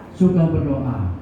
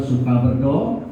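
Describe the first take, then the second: First: Slow repeat with suka stressed. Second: Said in the usual way. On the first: Shown as a demonstration. Preacher repeats the point to the congregation, slow and stressed. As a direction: lean on suka, stretch suka berdoa out.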